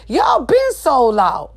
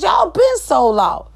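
First: Slow shout. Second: High slow shout. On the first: Shouted accusation. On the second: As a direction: yell it up high, angrier. Shouted higher repeat. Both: Real, not acted.

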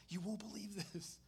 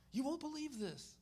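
First: Contained, understated disbelief; mild amazement. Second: Much higher, excited repeat; excited amazement. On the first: Speaker retells his reaction to sharing, mild amazement. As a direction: share astonishing news, holding it back a little. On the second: Speaker retells his reaction to sharing, excited amazement. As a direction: burst with astonishing news, pitched well up. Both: Retold or imitated.

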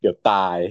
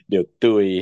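First: Said in the usual way. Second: เดี๋ยวตุย said cute and a bit louder; baby-talk ตุย for ตาย; playful baby-talk. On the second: Shown as a demonstration. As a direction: soften ตาย into ตุย, cutesy.

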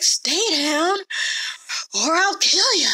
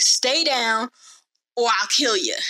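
First: Higher-pitched, winded mock threat; mock out of breath. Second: Mild mock threat, slightly raised pitch; lightly acted warning to a beaten opponent; retold threat. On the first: Dude tiring as he knocks Theon down, breathlessly threatening. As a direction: act out a tiring fighter straining to threaten. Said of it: "starting to get out of breath". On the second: Dude warning Theon mid-fight, mildly threatening. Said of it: "the dude is telling Theon".

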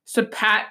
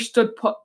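First: "pat" fixed with a clear "a" as in "cat"; "stood pat", the corrected take, "pat" rhyming with "cat"; self-correction. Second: "put" said by mistake with the vowel of "foot", then caught; "stood put", a real slip with "put" rhyming with "foot"; slip of the tongue. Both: Real, not acted. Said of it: "I almost said stood put".

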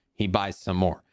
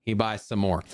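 No difference in how they are said.

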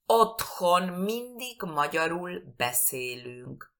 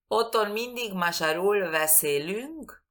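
First: Slow "Otthon mindig magyarul beszélünk", with breathed h in Otthon; careful Hungarian pronunciation. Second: "Otthon mindig magyarul beszélünk" run together, h dropped from Otthon; wrong Spanish-style pronunciation. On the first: Teacher modelling a difficult sentence for learners, slow and exact. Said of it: "es muy difícil la pronunciación". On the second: Teacher showing what is not understood, careless mispronunciation. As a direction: say "magyarul beszélünk" with Spanish gy and b, stress off the first syllable. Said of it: "no me entienden".

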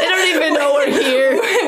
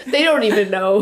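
First: Raised, slower, laughing; louder laughing shout. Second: Quiet giggly aside; laughing softly. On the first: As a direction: call it out laughing. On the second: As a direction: murmur it through a giggle. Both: Real, not acted. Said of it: "repeated louder".

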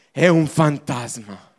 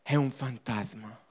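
First: Said in the usual way. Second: Lower, softer repeat with a rise; soft echo. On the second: Shown as a demonstration. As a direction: let it fade as a doubtful echo. (ripetizione sommessa, più bassa e piano) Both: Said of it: "Non lo riconosciamo".

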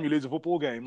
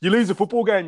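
First: Said in the usual way. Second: Louder and higher, hammering the point; emphatic. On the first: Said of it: "like, you lose a football game". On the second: Real, not acted. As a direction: push the words out louder and higher to make the case.

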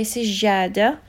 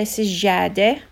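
First: سجادة ending in an "ah" sound. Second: سجادة ending in an "eh" sound. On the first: Teacher showing what others say, سجادة with "ah" ending. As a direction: say سجادة with a final "ah". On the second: Teacher showing what some people say, سجادة with "eh" ending. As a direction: say سجادة with a final "eh". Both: Shown as a demonstration. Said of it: "end with either E H or A H".

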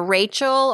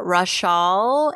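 First: Rachel said the common English way, RAY-chul; first pronunciation. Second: Rachel said as ruh-SHAHL, stress at the end; alternative pronunciation. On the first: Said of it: "I don't wanna mispronounce her name". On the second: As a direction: Rachel pronounced French-style, ra-SHAHL. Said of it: "It's R A C H A L". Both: Shown as a demonstration.

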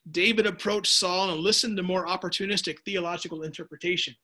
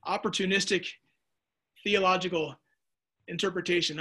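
First: Said in the usual way. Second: Opportunistic, theological, interpretation each set apart by a long pause; word by word. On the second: Shown as a demonstration. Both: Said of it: "Once again".

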